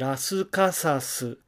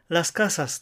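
First: It has five syllables, with added vowels. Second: It has three syllables, with no extra vowels. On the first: The speaker calls it wrong. "カタカナを読んでラスカサスなどというふうにしてしまうと" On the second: The speaker calls it right. "音節はやはり3 つだし"

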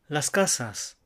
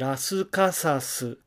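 First: It is said without extra inserted vowels. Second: It is said with extra inserted vowels. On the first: The speaker calls it right. "なるべく同じように" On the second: The speaker calls it wrong. "カタカナを読んで"

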